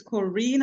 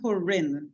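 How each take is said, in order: First: Corinne said "kuh-REEN"; long EE pronunciation. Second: Corinne said "kuh-RIN"; short I pronunciation. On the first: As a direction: stress the second syllable of Corinne with a long ee. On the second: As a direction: stress the second syllable of Corinne with a short i. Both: Shown as a demonstration. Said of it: "I accept both pronunciations".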